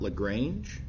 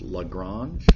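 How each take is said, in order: First: The name is said the American way. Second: The name is said the French way. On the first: This is how people in a Texas town say it. The speaker calls it wrong. "not Lagrange" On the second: This is how the mathematician said his own name. The speaker calls it right. "pronounced Lagrange"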